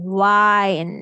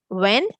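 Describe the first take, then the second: First: The vowel is long, as in mind. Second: The vowel is short, as in pinned. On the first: It means to turn or coil something. "it's saying the long I sound" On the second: It means moving air. "I is saying the eh sound"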